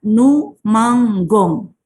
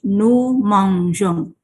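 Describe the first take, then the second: First: The g is pronounced hard, like g in go. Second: The g is pronounced soft, like the s in measure. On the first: The speaker calls it wrong. "Kalau nous dengan ons bunyinya akan nous manggong" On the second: The speaker calls it right. "dipertahankanlah e-nya"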